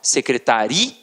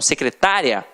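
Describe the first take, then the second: First: The stress falls on the syllable 'ri'. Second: The stress falls on the syllable 'ta'. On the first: "então já é uma paroxítona terminada em A" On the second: "secretária tem acento. Paroxítona terminada em quê? Em ditongo"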